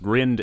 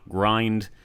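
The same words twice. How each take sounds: First: The vowel is short, like in 'grinned'. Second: The vowel is long, like in 'mind'. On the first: The speaker calls it right. "are pronounced grind" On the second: The speaker calls it wrong. "and not grind"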